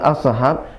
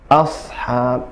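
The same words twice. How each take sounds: First: The h sound ends with a bounce. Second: The h sound flows smoothly without bouncing. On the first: The speaker calls it wrong. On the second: The speaker calls it right.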